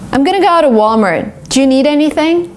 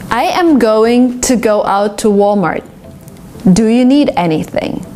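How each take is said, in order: First: The words run smoothly together, reduced and connected. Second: Each word is said carefully and separately.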